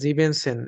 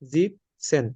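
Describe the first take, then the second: First: The first part keeps its full second syllable. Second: The first part drops its second syllable. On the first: The speaker calls it wrong. "ওইভাবে ভেঙে ভেঙে উচ্চারণ করি তাহলে ভুল আসবে" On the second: The speaker calls it right. "জিবেন হবে না, এখানে জিপসেন হবে, ই এনটা হবে না"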